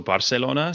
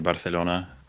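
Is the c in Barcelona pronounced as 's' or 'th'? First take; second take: s; th. First: The c is pronounced as an s sound. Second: The c is pronounced as a th sound. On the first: This is how it is said in the local language. "it still sounds like an S" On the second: This is how it is said in Spain. "the th is only um, Spain where they say Barcelona"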